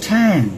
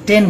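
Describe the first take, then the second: First: The first consonant has a strong puff of air. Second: The first consonant has no puff of air. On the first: The speaker calls it right. "আমরা বলবো ট্যান" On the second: The speaker calls it wrong. "আমরা টেন বলবো না"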